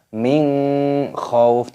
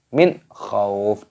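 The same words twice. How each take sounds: First: The n is blended with a nasal hum. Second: The n is pronounced clearly without nasal hum. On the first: The speaker calls it wrong. "Jangan dibaca min khauf, tidak boleh" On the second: The speaker calls it right. "dibaca jelas, jangan didengungkan"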